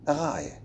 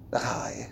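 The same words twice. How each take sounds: First: Said in the usual way. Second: Breathy unvoiced whisper, very soft; whispered, close to the ear. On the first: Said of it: "Daar ga je (whispered take)". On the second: Shown as a demonstration. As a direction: drop to a secret whisper.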